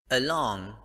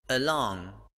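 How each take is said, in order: The two takes are said the same way.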